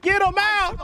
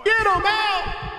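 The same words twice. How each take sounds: First: A quick, high, sharp shout; urgent yell. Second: Slow, high, stretched-out shout; drawn-out yell. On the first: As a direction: bark the order at your squad. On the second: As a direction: drag every word of the order out. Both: Real, not acted. Yelling at teammates mid-fight.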